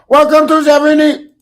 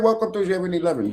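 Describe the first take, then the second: First: It is said in a put-on Indian-sounding accent. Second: It is said in a plain American accent. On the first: "Was that racist, y'all?" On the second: "the way I'm saying it right now ... It's regular"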